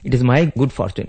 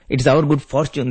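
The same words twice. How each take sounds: First: "my" raised in pitch and weighted; stress on "my". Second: "our" given the weight; stress on "our". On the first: Rama turning the praise round to himself, stress on "my". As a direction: punch "my", then let the phrase fall. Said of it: "But here Rama is telling". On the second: Devotees telling God of their luck, stress on "our". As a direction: lean on "our" in the phrase. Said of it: "All the time we say to God". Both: Shown as a demonstration.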